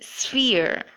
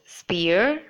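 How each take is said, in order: First: The sound after the s is an f. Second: The sound after the s is a p. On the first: The speaker calls it right. "the ph should be in fact uh, be pronounced as f" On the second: The speaker calls it wrong. "Have you been saying it as spear? If you have, then that is not correct"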